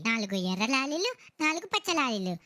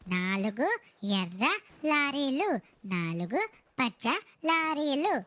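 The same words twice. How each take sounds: First: It is said at a fast, rushed pace. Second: It is said at a slow, careful pace.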